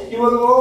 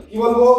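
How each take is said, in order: Both takes have the same delivery.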